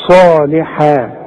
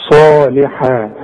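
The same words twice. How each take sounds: First: صالحا slow, with صا held two beats; neither longer nor shorter; slow lengthening. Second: صالحا slow, with a long صا; two beats on صا; slow lengthening. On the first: Teacher repeats صالحا with the exact length. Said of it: "لا تزود ولا تنقص". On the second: Teacher models the natural lengthening in صالحا. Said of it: "ده المد الطبيعي". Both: Shown as a demonstration.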